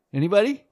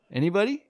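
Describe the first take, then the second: No difference in how they are said.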